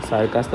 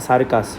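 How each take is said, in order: No difference in how they are said.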